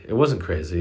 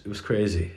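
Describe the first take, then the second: First: "wasn't" pressed as the correction; self-correction with "wasn't" stressed. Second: Said in the usual way. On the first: Real, not acted. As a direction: lean on "wasn't" to correct yourself.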